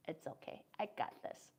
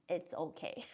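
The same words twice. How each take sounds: First: Unvoiced whisper, mock reassurance; whispered imitation. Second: Said in the usual way. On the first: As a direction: whisper it like brushing off help.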